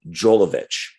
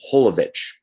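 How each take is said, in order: First: The name begins with a J sound. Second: The name begins with an H sound. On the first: This is how many people in America say it. The speaker calls it wrong. "in America, a lot of people say" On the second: This is how it is said in Europe. The speaker calls it right. "The J is pronounced as an H"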